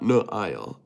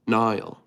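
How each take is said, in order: First: "Nail" said as no-EYE-ul; mistaken three-syllable pronunciation. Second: "Nile" as one smooth NY-ul; corrected pronunciation. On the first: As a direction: split "Nail" apart, no-EYE-ul. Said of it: "Not Nail. Nile". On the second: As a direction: say "Nile" like the river. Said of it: "oh, it's Nile". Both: Shown as a demonstration.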